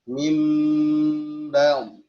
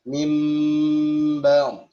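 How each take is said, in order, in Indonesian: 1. Bibir menutup dengan lembut pada bunyi m. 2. Bibir menutup dengan lembut pada bunyi m.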